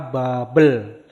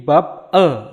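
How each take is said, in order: First: The consonant starts the next syllable, smoothly linked. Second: The consonant ends the first syllable, sounded separately.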